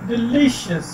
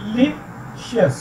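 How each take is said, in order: First: delicious said whole, weight on LI; de-LI-cious, middle syllable stressed in delicious. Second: delicious slowly as de, li, cious; pauses between the three pieces of delicious; split into syllables. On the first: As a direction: join up delicious and lean on the middle. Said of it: "तो ली पे जो है". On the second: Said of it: "कितने syllable हैं". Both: Shown as a demonstration.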